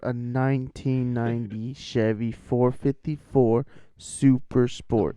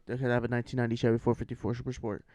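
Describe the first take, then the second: First: It is said slowly. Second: It is said fast.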